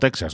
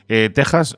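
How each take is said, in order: First: The middle consonant is a ks sound. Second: The middle consonant is a throaty h sound. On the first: The speaker calls it wrong. "no Texas" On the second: The speaker calls it right. "se pronuncia con J"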